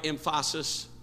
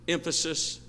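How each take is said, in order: First: "emphasis" said em-FAH-sis; wrong-stress joke. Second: Said in the usual way. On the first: Shown as a demonstration. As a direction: misplace the stress in "emphasis" onto the middle syllable. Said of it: "I don't need to make a joke out of it". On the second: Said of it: "on the right emphasis".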